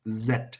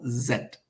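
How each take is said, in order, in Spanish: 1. Se pronuncia con acento británico. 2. Se pronuncia con acento británico.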